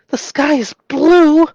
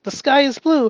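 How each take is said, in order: First: It is said with shocked fear. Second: It is said calmly and plainly.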